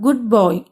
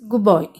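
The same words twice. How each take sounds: First: The first word ends with a clear 'd' sound. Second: The first word ends with a 'b' sound.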